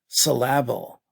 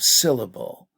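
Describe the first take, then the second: First: The stress falls on an unusual syllable. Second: The stress falls on the usual first syllable. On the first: The speaker calls it wrong. "I am having trouble with the word syllable" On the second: The speaker calls it right. "instead of syllable"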